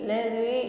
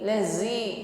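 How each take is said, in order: First: The middle consonant is soft, without hissing. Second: The middle consonant is a hissing z sound. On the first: The speaker calls it right. "pertahankan bunyi dalnya tipis ya, lembut ... tidak diiringi dengan bunyi desis" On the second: The speaker calls it wrong.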